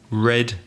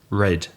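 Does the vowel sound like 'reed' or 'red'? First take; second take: red; red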